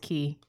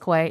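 First: The word is said with a plain 'k' start, like 'key'. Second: The word is said with a 'kw' start, like 'kway'. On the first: The speaker calls it right. "It's Key" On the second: The speaker calls it wrong. "I thought that was Quay"

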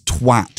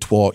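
First: The vowel sounds like the one in 'cat'. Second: The vowel sounds like the one in 'cot'. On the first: The speaker calls it right. "It rhymes with cat" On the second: The speaker calls it wrong. "stop pronouncing it twat"

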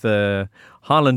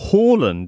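First: The name is said with English pronunciation. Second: The name is said with Norwegian pronunciation.

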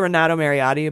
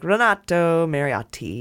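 First: The T sounds are soft and plain. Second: The T sounds are hit hard, Italian style.

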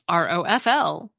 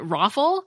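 First: Each letter is pronounced separately. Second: It is pronounced as a single word. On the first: It is treated as an initialism. "pronounce all the letters" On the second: It is treated as an acronym. "I've always pronounced it ROFL as if it were an acronym"

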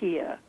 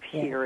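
First: The final R sound is dropped. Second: The final R sound is pronounced. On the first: "they drop their R's. They say here" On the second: "instead of here"

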